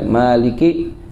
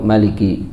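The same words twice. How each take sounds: First: The first vowel is held long. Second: The first vowel is kept short.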